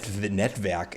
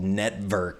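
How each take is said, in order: First: The name is said with a German-sounding accent. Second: The name is said in a plain English way.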